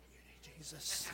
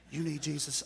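First: Nearly whispered, much softer and lower "You need Jesus"; hushed aside. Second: Said in the usual way. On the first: Acted. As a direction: drop it to a murmur for the room. Preacher's hushed aside to crowd.

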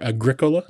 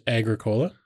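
First: "Agricola" stressed on the second syllable; alternative pronunciation. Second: "Agricola" stressed on the opening syllable; first pronunciation variant. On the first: Offering the other way to say the game, "Agricola" with second-syllable stress. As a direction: say "Agricola" as a-GRIC-o-la. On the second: Offering a favorite board game's name, "Agricola" with front stress. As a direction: say "Agricola" as AG-ri-COH-la. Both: Shown as a demonstration. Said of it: "depending on how you pronounce it".

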